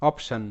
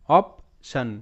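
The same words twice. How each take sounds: First: Said in the usual way. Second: option broken into "op", pause, "shon"; split syllables. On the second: Shown as a demonstration. Teacher sounds out the word for learners, option split "op - shon". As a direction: sound out option slowly in two separate parts.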